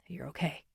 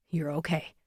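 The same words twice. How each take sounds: First: Much softer, low reassurance; low and gentle. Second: Soft, low repeated reassurance; low and gentle. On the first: Firefighter reassuring the boy after the rescue, soft gentle. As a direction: quietly reassure the shaken boy. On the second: Firefighter repeating comfort to the boy, soft gentle. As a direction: gently say it once more to settle him. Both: Acted. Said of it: "His voice is low now, gentle".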